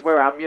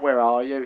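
First: Local English dialect on display; demonstrated regional English accent; regional country accent. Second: Said in the usual way. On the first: Shown as a demonstration. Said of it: "You say it's".

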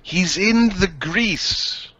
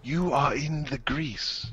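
First: Raised, sing-out delivery; called out. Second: Soft, subdued delivery; quiet repeat. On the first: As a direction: announce it in a higher voice. Same phrase first called out. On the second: Same phrase repeated softly. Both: Acted.

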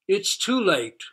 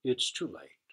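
First: Higher, loud despairing cry; all shout it together in despair; loud anguished outcry. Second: Low, sad moan of defeat; mildly moaning, giving up. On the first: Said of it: "cried all the animals". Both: A narrator's reading.

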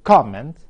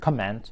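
First: Comment as the noun, COMment, first syllable stressed and louder; stress on COM. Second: Comment as the verb, comMENT, stress on the second syllable; stress on MENT. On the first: Teacher models the noun comment, stress on COM. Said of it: "كلمة comment". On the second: Teacher models the verb comment, stress on MENT. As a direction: put the weight on MENT in comment. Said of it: "على المقطع الثاني". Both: Shown as a demonstration.

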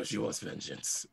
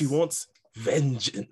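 First: Quieter second take at the character voice; hushed character line after the laughing. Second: Higher, louder character voice, drawn out slowly; wobbly first try at a dramatic character line; character voice attempt. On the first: Acted. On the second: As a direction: have a go at the character voice, loud and slow. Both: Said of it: "You gotta say it in the voice".

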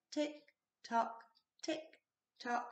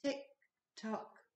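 First: "Tick tock" softer and slow, ticking evenly; a quiet steady clock in the night. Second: Said in the usual way. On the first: A narrator's reading. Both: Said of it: "went the living room clock".

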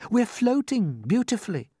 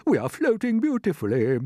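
First: Pitched-up, lightly voiced boy; calm young James. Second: Put-on loud, pitched-up, stately old character; old green grasshopper. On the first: James reassures the frightened creatures, calm. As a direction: reassure them simply, as the boy. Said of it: "said James calmly". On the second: Grasshopper confirms James's news to everyone, stately. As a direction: pronounce it grandly as an old grasshopper. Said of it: "the old green grasshopper said". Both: A narrator's reading.

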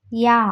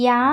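First: യാ repeated alone, clearly sounded out; German J as യാ. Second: യാ said plainly inside the sentence; just say യാ in passing; German J as യാ. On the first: Teacher modelling the German J sound alone. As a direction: sound out യാ on its own for students. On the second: Teacher naming how J sounds in German. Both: Shown as a demonstration. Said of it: "pronounce ചെയ്യുന്നത്".

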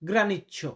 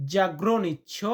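First: গ্রানিচ্ছ with the za- dropped, starting on gra; casual short গ্রানিচ্ছ; short form. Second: জাগ্রনিচ্ছ with the za- opening sounded; full form. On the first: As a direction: clip it to গ্রানিচ্ছ, beginning straight on gra. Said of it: "বা আমরা এমনটা উচ্চারণ করি গ্রানিচ্ছ". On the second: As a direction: say the whole জাগ্রনিচ্ছ starting on za. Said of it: "বা আমরা এমনটা উচ্চারণ করি". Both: Shown as a demonstration.

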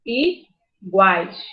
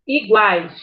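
First: "Iguais" split as i - guais; i... guais, separated for the class; syllable by syllable. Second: Said in the usual way. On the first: Shown as a demonstration. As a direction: clear pause after the "I" of "Iguais". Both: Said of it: "primeiro separou a sílaba".

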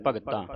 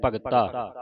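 First: ਭਗਤਾਂ with a nasal final vowel, the wrong way; ਭਗਤਾਂ ending in a nasal ਆਂ, shown as wrong. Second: ਭਗਤਾ with a clean oral final ਆ; ਭਗਤਾ ending in a plain open ਆ; no nasal ending. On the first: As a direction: say ਭਗਤਾਂ nasalised, as the mistake to avoid. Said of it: "ਬਿੰਦੀ ਲਾ ਕੇ ਉਚਾਰਨ ਨਹੀਂ ਕਰਨਾ". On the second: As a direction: say ਭਗਤਾ without the nasal sound. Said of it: "ਬਿੰਦੀ ਤੋਂ ਰਹਿਤ ਪੜ੍ਹਨਾ". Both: Shown as a demonstration.

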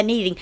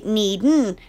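First: "needing" with its -ing sounded; full -ing ending. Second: "needin'" ending in a plain n; dropped g. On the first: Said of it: "some people don't pronounce the needing". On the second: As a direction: swallow the last vowel of "needin'". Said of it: "They say needin'". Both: Shown as a demonstration.

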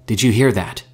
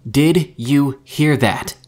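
First: Louder, mildly panicked question; rising panic. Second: Slow, loud, word-by-word shout; screamed into radio. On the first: Mika radios friends who don't answer, starting to panic. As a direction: press anxiously for an answer. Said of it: "Mika was beginning to panic". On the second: Mika screams into the silent radio, nearly in a rage. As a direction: yell each word separately, higher and enraged. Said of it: "Mika screamed into the radio". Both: A narrator's reading.

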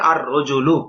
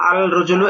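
First: আর রজুলু with the lam turned into a doubled r; teacher modelling the right আর রজুলু; correct pronunciation. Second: আল রজুলু with the lam clearly sounded before r; teacher voicing the wrong form আল রজুলু; wrong pronunciation. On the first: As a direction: say আর রজুলু as ar-rajulu, no l, r held double. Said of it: "কি হবে?". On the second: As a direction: say আল রজুলু as al rajulu, l kept, as the mistake. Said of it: "এটা ভুল". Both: Shown as a demonstration.

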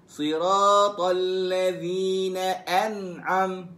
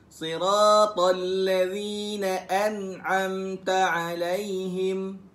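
First: Chanted slowly, Siratal ladzina an'am cut short without the ta; wrong ending an'am, drawn out Quran recitation. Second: Slow chanted recitation ending clearly on an'amta alaihim; correct recitation. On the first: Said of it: "Bukan siratal ladzina an'am". (bacaan salah an'am tanpa ta, dilagukan perlahan) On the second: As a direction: recite it slowly with the full an'amta. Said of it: "Sebut-sebut". (bacaan betul an'amta alaihim, dilagukan perlahan) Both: Shown as a demonstration.

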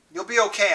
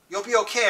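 First: Forced bright reassurance, slightly higher; fake cheerfulness. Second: Steady firm reassurance, slightly higher. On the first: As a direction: sound cheerful while hiding worry. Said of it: "I said with fake cheerfulness". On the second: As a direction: say it as if it must be true. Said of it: "I repeated firmly". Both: A narrator's reading.

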